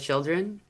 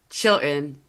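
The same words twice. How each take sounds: First: Every sound in the word is pronounced. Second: A sound in the middle is dropped. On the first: This is the usual way to say it. "instead of children" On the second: This is how people around here say it. "here it's children"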